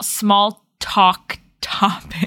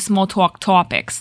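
First: Talk and top have different vowels. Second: Talk and top have the same vowel. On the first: "We pronounce them different" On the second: "some people would say small talk topics. Like it would be like the same noise"

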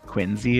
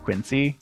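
First: The middle consonant is a z sound. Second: The middle consonant is an s sound. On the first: This is how locals say it. "I have caught myself saying Quincy" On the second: This follows the spelling. "but it's a C, not a Z"

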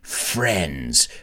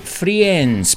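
First: The vowel is a plain short e sound. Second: The vowel has an extra ee sound in it. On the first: The speaker calls it right. "Imagínate esa palabra sin la I" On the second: The speaker calls it wrong. "I hope you don't pronounce it Friends"

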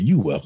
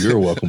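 First: The first word is said as plain 'you'. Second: The first word is said as full 'you're'. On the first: The speaker calls it right. "but you welcome" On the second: The speaker calls it wrong. "Not you're welcome"

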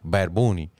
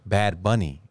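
First: The name is said with Spanish pronunciation. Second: The name is said with English pronunciation. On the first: "I said it again" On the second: "I was like"

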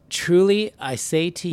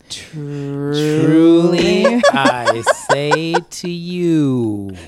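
First: It is read at a fairly normal pace. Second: It is read very slowly and drawn out. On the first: "No, I said slower" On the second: "Is that what you meant?"

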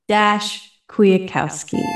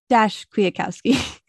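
First: The name is said without any laughter. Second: The name is said while laughing.

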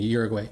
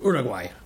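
First: The name is said with an English pronunciation. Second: The name is said with a Spanish pronunciation. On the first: "mispronounce it in the English way of saying Uruguay" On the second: "As opposed to Uruguay"

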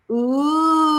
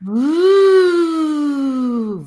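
First: The voice sounds pressed, without airflow. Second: The voice flows freely with air and support.

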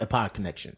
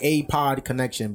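First: The name is said quickly, parts run together. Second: The name is said slowly, parts kept apart. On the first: "maybe you just broke it down fast" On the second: "I was like A-Pod Connection"

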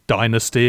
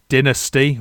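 First: It is said with an American pronunciation. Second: It is said with a British pronunciation.

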